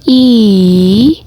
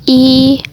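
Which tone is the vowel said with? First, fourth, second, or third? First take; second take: third; first. First: The vowel carries the third tone. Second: The vowel carries the first tone. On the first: "nada ketiga" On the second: "Nada pertama"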